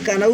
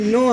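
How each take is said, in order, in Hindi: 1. यह शब्द बोले जाने वाले k से शुरू होता है। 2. यह शब्द n की आवाज़ से शुरू होता है। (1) "ये कनऊ नहीं है" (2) "ये नो है। यहाँ पे के साइलेंट है।"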